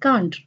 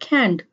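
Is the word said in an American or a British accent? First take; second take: British; American. First: The word is said with a British accent. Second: The word is said with an American accent. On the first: "in the British, we pronounce it can't" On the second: "In the American, we we pronounce it can't"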